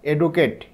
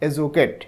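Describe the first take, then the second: First: The middle consonant is a plain d sound. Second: The middle consonant is a j sound. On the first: The speaker calls it wrong. "তোমরা অনেকেই হয়তো বলতে পারো এডুকেট" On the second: The speaker calls it right. "কিন্তু সঠিক উচ্চারণ হচ্ছে এজুকেট"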